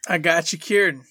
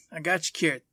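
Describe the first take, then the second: First: Emphatic offer. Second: Said in the usual way. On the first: Real, not acted.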